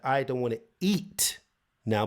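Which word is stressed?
eat. The stress falls on the word eat. Eating is refused, but something else may be wanted. "but maybe I want to drink"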